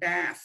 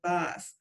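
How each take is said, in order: First: The word is said with an American accent. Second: The word is said with a British accent.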